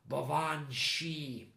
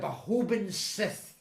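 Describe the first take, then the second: First: The name is said 'bo-van shee', ending 'shee'. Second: The name is read letter by letter, ending 'sith'. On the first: This is the genuine Gaelic pronunciation. The speaker calls it right. "the creature's name was actually pronounced" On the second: This is how a child unfamiliar with Gaelic would read it. The speaker calls it wrong. "this was how I would have pronounced it at the time"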